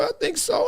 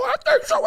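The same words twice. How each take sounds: First: Very high soft I think so; playful high. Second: Even higher squeaky I think so; playful squeal. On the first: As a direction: squeak it playfully. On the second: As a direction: squeal it teasingly. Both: Pretend.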